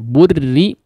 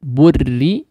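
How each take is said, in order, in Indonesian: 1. Bunyi r-nya ringan dan tipis. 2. Bunyi r-nya ringan dan tipis.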